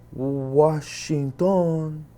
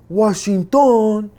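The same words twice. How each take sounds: First: Washington drawn out very slowly, syllable by syllable; slow sounding out. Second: Washington loud and much higher, a sudden exclaim; excited recognition. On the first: Guard slowly deciphers the ID card word. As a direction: spell out Washington like a struggling reader. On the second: Guard suddenly realizes the prisoner is American. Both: Retold or imitated.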